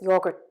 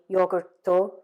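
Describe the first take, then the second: First: The word ends cleanly on the final t. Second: An extra vowel is added after the final t. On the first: The speaker calls it right. "ending those words with the consonant sound and not adding any vowel" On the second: The speaker calls it wrong. "that you maybe say yogurto"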